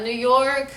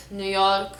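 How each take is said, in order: First: Slow, louder American New York; American accent. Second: New York in a Lebanese accent. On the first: Announcing it to viewers, American accent. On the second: Showing how Lebanon says it, Lebanese accent. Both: Shown as a demonstration. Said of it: "How do we say states".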